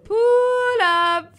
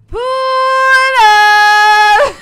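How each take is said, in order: First: It is said flatly, with little inflection. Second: It is said with strong feeling and inflection.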